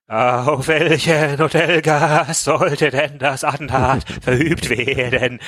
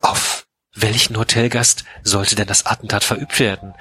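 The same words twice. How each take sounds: First: Hammed-up frightened quaver, dragged out slowly; vibrating voice. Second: Said in the usual way. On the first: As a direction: let the voice tremble as she asks in fright. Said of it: "fragte sie mit vibrierender Stimme". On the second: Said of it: "ach nee, Entschuldigung, Moment".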